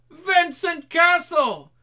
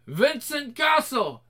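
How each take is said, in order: First: Reversed speech, shouted high; backwards talking. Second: Slow, drawn-out reversed speech; like a tape run backwards, slowly; backwards talking. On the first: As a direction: yell it like a tape played backwards. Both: Acted. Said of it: "doing the backwards talking".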